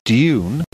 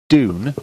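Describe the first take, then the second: First: It is said like "dyoon", with a y glide. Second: It is said like "doon", without a y glide. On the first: "D Y U N E" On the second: "as in D O O N"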